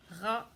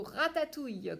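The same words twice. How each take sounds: First: Ra-ta-touille chopped into three beats; teacher beating the syllables for the class; tapping syllables. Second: Said in the usual way. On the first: Shown as a demonstration. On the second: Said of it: "combien de syllabes".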